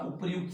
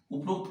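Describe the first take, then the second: First: उपर्युक्त said with र्यु joined, उपर-युक्त; correct form. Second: उपरोक्त said as उप-रोक्त, the common mistake; quick उपरोक्त with no य sound; wrong form. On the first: Teacher to exam students, stating the right उपर्युक्त calmly. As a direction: give उपर्युक्त its full र्यु cluster clearly. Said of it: "उपर्युक्त शब्द होता है". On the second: Teacher warning exam students, quoting the wrong उपरोक्त. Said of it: "उपरोक्त कोई शब्द नहीं होता". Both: Shown as a demonstration.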